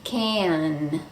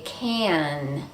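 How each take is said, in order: The two takes are said the same way.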